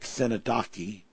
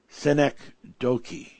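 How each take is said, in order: First: The word has a personal, nonstandard pronunciation. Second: The word has the standard pronunciation. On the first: The speaker calls it wrong. "in the [name] way of how I like to pronounce some words" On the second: The speaker calls it right. "give it the correct enunciation"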